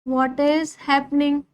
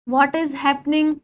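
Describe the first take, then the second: The two takes are said the same way.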